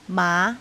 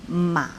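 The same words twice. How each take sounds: First: The pitch rises from fairly low. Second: The pitch dips low, then bends up. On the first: "Deuxième ton, c'est le ton montant" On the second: "Troisième ton, c'est le ton bas, en creux"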